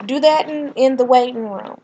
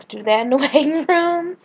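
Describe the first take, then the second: First: Said in the usual way. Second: Amused, laughing repeat. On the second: Real, not acted. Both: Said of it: "They're very extra".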